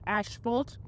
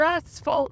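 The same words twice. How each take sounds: First: The first syllable sounds like "ash". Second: The first syllable sounds like "ass". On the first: It is how Australians usually say the word. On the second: It makes a pun on tripping over your bottom.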